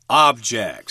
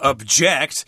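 First: The stress is on the first syllable. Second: The stress is on the second syllable. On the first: It means a thing you can touch. "the noun with the accent on the first syllable" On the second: It means to disagree with something. "don't confuse that with the verb form"

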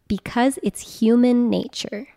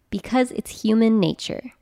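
First: It is said more slowly. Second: It is said at normal speed.

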